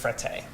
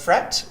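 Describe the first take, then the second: First: The name is pronounced in an Italian way. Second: The name is pronounced in a French way. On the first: It is the name as Italians say it. The speaker calls it right. "the right way is Frette" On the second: It reflects the company's French origins. The speaker calls it wrong. "which would be the French connection"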